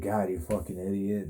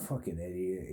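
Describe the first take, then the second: First: Said in the usual way. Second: Low muttered fucking idiot, under breath; muttered insult. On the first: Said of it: "I'm like". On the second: Retold or imitated. Guy muttering at him as he walks out, quietly. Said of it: "this guy's like".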